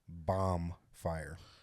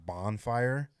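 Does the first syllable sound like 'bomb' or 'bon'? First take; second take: bomb; bon. First: The first syllable sounds like the word bomb. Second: The first syllable ends in an n sound. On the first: The speaker calls it wrong. "mispronounced word all the time that I used to think" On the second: The speaker calls it right. "instead of bonfire"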